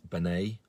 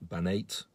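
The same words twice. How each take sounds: First: Banat, without a final T-like "ate" ending; tentative name pronunciation. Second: Banate, ending like "ate"; alternative name pronunciation. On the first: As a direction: try the surname as "Banat". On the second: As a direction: offer "Banate" as the other guess. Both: Real, not acted. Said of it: "I hope I'm pronouncing his".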